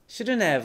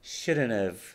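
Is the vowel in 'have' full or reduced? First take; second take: full; reduced. First: The word have keeps its full vowel. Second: The word have has a weak, reduced vowel. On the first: The speaker calls it wrong. "shouldn't have はあまり聞かないですね。" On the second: The speaker calls it right. "これがまたあとうの間の母音なんですね。shouldn't have と言います。"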